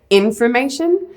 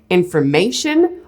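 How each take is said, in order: First: The stress is on the first syllable. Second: The stress is on the third syllable.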